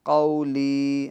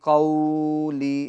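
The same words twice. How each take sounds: First: The first syllable is short, soft and unstretched. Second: The first syllable is drawn out and stretched. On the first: The speaker calls it right. "हाँ ली को खींचे" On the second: The speaker calls it wrong. "यानी इसको खींचेंगे नहीं, कौली ऐसा नहीं"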